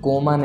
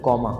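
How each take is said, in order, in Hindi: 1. पहला स्वर बंद 'o' ध्वनि है। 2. पहला स्वर खुला 'aw' ध्वनि है। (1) "कोमा नहीं"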